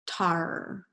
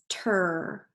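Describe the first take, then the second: First: The vowel sounds like ar. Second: The vowel sounds like er. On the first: "Let's try it with R" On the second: "let's start it with er"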